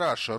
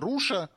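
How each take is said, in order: First: The first vowel is an open 'a'-like sound. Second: The first vowel is a rounded 'oo'-like sound. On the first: "вместо «раша»" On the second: "они говорят"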